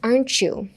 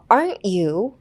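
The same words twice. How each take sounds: First: The t and the you merge into chu. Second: The t and the you are kept apart. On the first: The speaker calls it right. "You をyou みたいに言います" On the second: The speaker calls it wrong. "分けるんじゃなくって"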